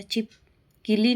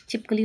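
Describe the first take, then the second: First: छिपकली said chip-killi, i in the middle; wrong pronunciation. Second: Said in the usual way. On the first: Shown as a demonstration. Teacher rejecting a mistake, छिपकली said chip-killi. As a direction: put "ki" inside छिपकली. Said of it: "नहीं होता". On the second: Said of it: "होता है".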